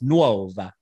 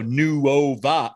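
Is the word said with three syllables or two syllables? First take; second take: two; three. First: The word is spoken in two syllables. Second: The word is spoken in three syllables. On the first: The speaker calls it right. "It's Nuova" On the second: The speaker calls it wrong. "I don't think anyone's going to go Nuova, no. And make that three"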